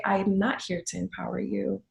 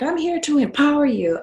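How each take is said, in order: First: Said in the usual way. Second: High, loud parody of a slogan; mock empowering photographer. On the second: Fellow boudoir photographers pitching clients, mock empowering. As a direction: mimic a keen photographer, pitched up and louder.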